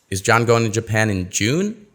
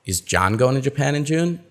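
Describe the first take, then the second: First: The word June is stressed. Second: The word John is stressed. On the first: The asker wants to know when he is going. "No, he's going in July" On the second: The asker wants to know who is going. "we're not sure uh, who's going"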